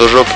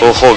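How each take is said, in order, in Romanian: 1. Consoana din mijloc este un sunet zh. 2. Consoana din mijloc este un sunet h. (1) "nu pronunță o joc" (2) "când pronunță litera J, pronunță H"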